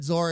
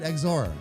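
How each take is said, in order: First: The word begins with a plain z sound. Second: The word begins with an eks sound. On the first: The speaker calls it wrong. "Do you know how many times I've said Zor and nobody's corrected me?" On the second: The speaker calls it right. "this big bald maniac will pronounce it Exor"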